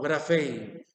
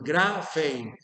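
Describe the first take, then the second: First: The stress is on the last syllable. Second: The stress is on the first syllable. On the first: The speaker calls it wrong. "No grafein" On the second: The speaker calls it right. "el acento debe ir lo más posible al inicio de la palabra"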